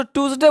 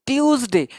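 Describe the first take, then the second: First: "ट्यूसडे" said as plain "टूज़डे", no y-glide; mistaken pronunciation. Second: "ट्यूसडे" opened with a clear "ट्यू" glide; corrected pronunciation. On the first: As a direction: say "ट्यूसडे" with a simple "टू" opening. ("ट्यूसडे" को सीधे "टू" से, गलत उच्चारण में) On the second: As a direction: say "ट्यूसडे" as tyooz-day. ("ट्यूसडे" में साफ़ "ट्यू", सही उच्चारण) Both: Shown as a demonstration. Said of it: "लोग उसको ट्यूसडे बोलते, नहीं".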